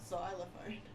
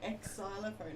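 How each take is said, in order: First: The word begins with a 'z' sound. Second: The word begins with an 'eks' sound. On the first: The speaker calls it right. "it's xylophone" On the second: The speaker calls it wrong. "it's not X xylophone"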